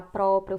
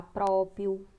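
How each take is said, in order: First: Próprio loud with both Rs sounded; correct pronunciation. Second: Próprio with the second R dropped; common mispronunciation. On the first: Teacher giving the right form, próprio with both Rs clear. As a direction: say próprio as "PRÓ-pri-o". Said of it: "em vez de falar próprio". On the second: Teacher showing the wrong form, próprio said without its second R. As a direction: say próprio slowly as "PRÓ-pi-o". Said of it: "fala próprio". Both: Shown as a demonstration.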